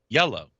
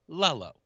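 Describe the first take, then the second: First: The word begins with a Y sound. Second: The word begins with an L sound. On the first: The speaker calls it right. "Say low, low, yellow" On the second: The speaker calls it wrong. "she couldn't say yellow. She would say lello"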